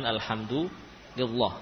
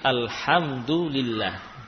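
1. Bunyi l dalam lillah dibaca tebal. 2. Bunyi l dalam lillah dibaca tipis. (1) "bukan alhamdulillah" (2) "kadang dibaca dengan tipis seperti alhamdulillah"

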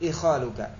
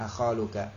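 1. Kata ini diawali dengan vokal 'i'. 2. Kata ini diawali dengan vokal 'a'. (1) "dengan kasrah" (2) "Kalau secara qiyas ya di fathah"

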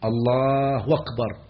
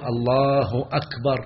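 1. تبدأ كلمة أكبر بصوت الواو. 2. تبدأ كلمة أكبر بالهمزة.

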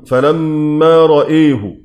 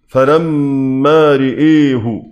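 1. الهمزة وحدها هي التي تُمال نحو الكسرة. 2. الراء والهمزة تُمالان نحو الكسرة كلاهما. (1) "إمالة الهمزة مع فتح الراء" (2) "إمالة الهمزة والراء"

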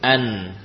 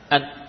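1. Bunyi sengau ditahan sejenak. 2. Bunyi sengau dihentikan secara tiba-tiba. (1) "Jadi suara gunnah tetap ada, ya, dijalankan beberapa saat" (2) "bukan bermakna memutus atau menghilangkan sifat gunnah"

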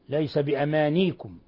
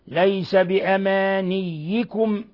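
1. صوت الياء مفرد وغير مشدد. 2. صوت الياء مشدد. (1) "قرأ بتسكين الياء في الموضعين" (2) "والباقون قرأوا بالتشديد"

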